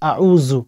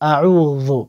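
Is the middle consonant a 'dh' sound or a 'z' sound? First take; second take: z sound; dh sound. First: The middle consonant is a plain z sound. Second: The middle consonant is made with tongue against teeth. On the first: The speaker calls it wrong. "অনেকে বলেন আউযু, আস্তাগফিরুল্লাহ" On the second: The speaker calls it right. "আপনার জিহ্বাটা দুই দাঁতের আগার সঙ্গে লাগাবেন"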